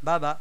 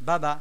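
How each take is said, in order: The two takes are said the same way.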